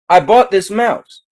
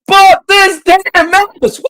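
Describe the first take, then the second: First: It is said calmly, at normal volume. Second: It is said loudly, in an exaggerated way.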